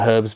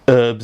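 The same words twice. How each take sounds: First: It is said with a British pronunciation. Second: It is said with an American pronunciation. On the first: This is how British people say it. "instead of herbs" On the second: This is how Americans say it. "Americans, you know, can't speak properly, say herbs"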